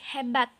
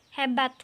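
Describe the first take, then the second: Both takes have the same delivery.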